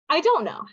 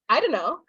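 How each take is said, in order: First: Do not is contracted to don't. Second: The words are run together and reduced. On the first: The speaker is a bit casual. "We shorten that to" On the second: The speaker is more casual. "we're even lazier"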